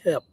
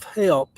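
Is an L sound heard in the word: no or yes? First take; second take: no; yes. First: The word is said with no L sound. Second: The word is said with a clear L sound. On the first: "I would say help, H E P" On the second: "instead of help"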